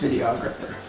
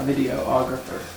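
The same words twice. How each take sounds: First: It is said without an extra 'o' vowel. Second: It is said with an extra 'o' vowel. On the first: The speaker calls it right. "there's no O, it's just videographer" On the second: The speaker calls it wrong. "Not videographer"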